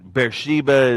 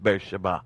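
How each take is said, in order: First: The name is said with an English pronunciation. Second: The name is said with a Hebrew pronunciation. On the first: This is the familiar local way of saying it. "is how we pronounced it" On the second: This is the original way of saying it. "Actual Hebrew pronunciation is"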